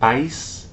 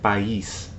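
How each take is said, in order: First: The two vowels glide together in one syllable. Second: The two vowels are split into two syllables.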